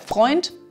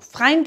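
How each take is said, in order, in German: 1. Der Vokal wird wie 'oy' gesprochen. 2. Der Vokal wird wie 'eye' gesprochen.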